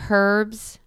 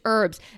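First: The word begins with an audible h sound. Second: The word begins with no h sound. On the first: The speaker calls it wrong. "She pronounces the H in herbs?" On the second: The speaker calls it right. "It's herbs"

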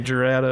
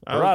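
First: The name begins with a J sound. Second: The name begins with an H sound. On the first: This follows the American pronunciation of the name. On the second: This follows the Spanish pronunciation of the name.

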